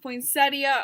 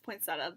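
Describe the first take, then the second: First: It is the coastal American pronunciation. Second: It is the Midwestern American pronunciation. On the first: "I know it's pronounced poinsettia on the coasts" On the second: "in the Midwest, I pronounce this poinsettia"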